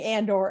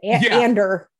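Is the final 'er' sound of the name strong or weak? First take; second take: weak; strong. First: The final syllable is light, without a strong R. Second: The final syllable ends with a strong, drawn-out R. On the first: This is how most people say the name. "everyone else is saying Andor" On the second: This is how one actor says the name. "he commits hard to the ER"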